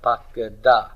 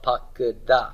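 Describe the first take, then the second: Both takes have the same delivery.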